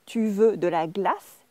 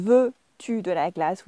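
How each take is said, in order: First: Slow "Tu veux de la glace", rising on "glace"; statement order made a question by lifting "glace"; rising question tune. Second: Slow, separated "Veux-tu de la glace"; formal textbook order, "Veux-tu" drawn out; inverted question. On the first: French teacher shows learners the spoken question, slowly rising. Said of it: "the voice goes up". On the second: French teacher repeats the form to avoid, slow inverted question. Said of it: "instead of saying". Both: Shown as a demonstration.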